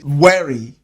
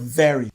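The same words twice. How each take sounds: First: It is said with a German accent. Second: It is said with a standard English accent. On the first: "Germans might say very" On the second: "instead of"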